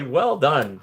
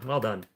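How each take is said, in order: First: Cheerful praise. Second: Quiet. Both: Shown as a demonstration.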